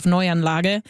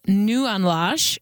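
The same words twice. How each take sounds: First: Neuanlage starting "noy", the German way; German pronunciation. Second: Neuanlage anglicized, starting "new" as in Nieuwanlage; Saskatchewan English pronunciation. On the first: Host contrasts it with the local version, German pronunciation of Neuanlage. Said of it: "instead of". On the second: Host shows how locals say it, anglicized pronunciation Nieuwanlage. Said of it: "people started talking about". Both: Shown as a demonstration.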